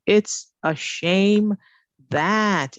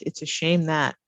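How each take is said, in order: First: Slow, drawn-out model phrase; slow emphasis. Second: Said in the usual way. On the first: Shown as a demonstration. Teacher slowly models the phrase for students. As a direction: stretch it out for the class.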